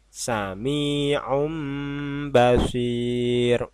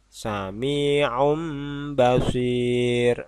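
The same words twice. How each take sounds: The two takes are said the same way.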